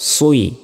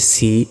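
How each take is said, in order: First: The vowel starts with rounded lips, sounding oi. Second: The vowel is a plain, unrounded i sound. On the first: The speaker calls it right. "প্রথমে ঠোঁটটা গোল করতে হবে" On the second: The speaker calls it wrong. "এটা সম্পূর্ণ ভুল।"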